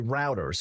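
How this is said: The word is said in an American accent.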